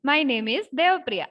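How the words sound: It is said in a very happy voice. "അങ്ങനെ ഭയങ്കര happy ആയിട്ട് പറയണം"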